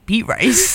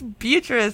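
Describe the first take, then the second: First: It is said as two words, beet rice. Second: It is said as the usual name Beatrice. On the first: The name was misread from its spelling. The speaker calls it wrong. "who names her dog Beet Rice?" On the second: The name is read as intended. The speaker calls it right. "then I realized it was Beatrice"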